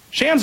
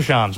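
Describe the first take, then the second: First: SHAMS with short "a" as in "cat"; first pronunciation. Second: SHAMS with open "ah" vowel; second pronunciation. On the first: Host asks guest which name to use, "Shams" with cat vowel. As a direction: say "Shams" to rhyme with "hams". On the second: Host offers guest the other option, "Shams" with "ah" vowel. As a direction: say "Shams" like "shahms". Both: Shown as a demonstration. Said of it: "Shams or Shams? What do you go with?".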